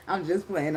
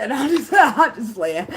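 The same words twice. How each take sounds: First: Said in the usual way. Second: Laughing through the words, high and loud. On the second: Real, not acted. Backing off her murder joke to the listeners, laughing. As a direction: giggle while taking the threat back.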